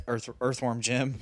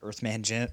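First: Earthworm Jim said with worm; corrected name. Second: Said as Earthman Jim, the wrong name. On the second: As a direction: Earthman Jim with man in place of worm. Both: Shown as a demonstration.

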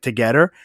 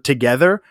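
First: Light imitation of a French Canadian accent. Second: Said in the usual way. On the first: Host showing how the band says a word, mock French Canadian accent. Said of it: "say it like a French Canadian guy". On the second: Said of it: "you can pick up when they say".

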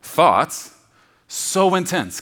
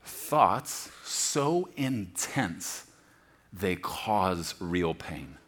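First: "Thoughts" shouted, "so intense" high and loud; loud punch. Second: Drawn-out thoughts so intense, slow and low; slow, heavy emphasis. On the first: Preacher driving the phrase home, loud and high. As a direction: hit it hard and high. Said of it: "just think about that". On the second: Preacher defining the word, slow and weighty. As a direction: let "so" stretch, weighty and slow. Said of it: "literally means". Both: Shown as a demonstration.

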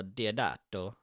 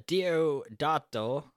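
First: "Diodato" slower and lower; alternative pronunciation of Diodato. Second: "Diodato" drawn out slowly; first pronunciation of Diodato. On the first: Host corrects the director's name, alternative pronunciation of Diodato. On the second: Host offers a name for the director, first pronunciation of Diodato. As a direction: say "Diodato" slowly, at usual pitch. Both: Shown as a demonstration. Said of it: "or Diodato".

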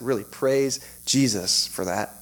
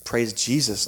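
First: Slow, deliberate "praise Jesus"; mean it, each word drawn out; sincere emphasis. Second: Said in the usual way. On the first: Real, not acted. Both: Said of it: "you may think I'm being sarcastic".

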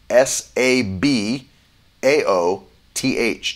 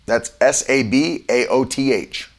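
First: Each letter slow and separate; S A B A O T H slowed right down; slow spelling. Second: Said in the usual way. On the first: Shown as a demonstration. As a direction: spell it out slowly for the listeners.

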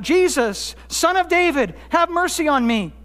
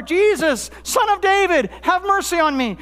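First: Mild retold cry for help, pitched up. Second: Higher, more insistent retold cry; crying out all the more. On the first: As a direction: call out pleadingly, without really shouting. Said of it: "He cried out". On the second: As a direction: call out harder over a crowd trying to silence you. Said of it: "he cries out all the more".

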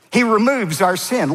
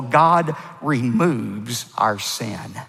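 First: He removes our sin lifted higher and louder, stressing He; emphatic repeat. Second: God removes our sin drawn out very slowly; slow and deliberate. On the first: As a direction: repeat it with a punch on He. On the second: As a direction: lay it down slow and steady. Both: Shown as a demonstration.

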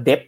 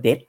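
First: "Debt" said as "dep", closing on the lips; mistaken B sound. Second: "Debt" said as "det", ending on a t; silent B. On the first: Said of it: "ผมอ่านว่า Debt". (อ่าน Debt ผิดเป็น "เด็บ") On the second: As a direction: drop the B in "Debt", tongue closes on t. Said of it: "เพิ่งรู้มันอ่านว่า Debt". (อ่าน Debt ว่า "เด็ท" ไม่ออกเสียงตัวบี) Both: Shown as a demonstration.

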